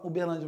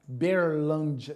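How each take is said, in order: First: The opening 'U' sound is fully pronounced. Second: The opening 'U' sound is dropped entirely. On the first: "O pessoal lá de Uberlândia não fala Uberlândia" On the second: "eles falam Berlândia"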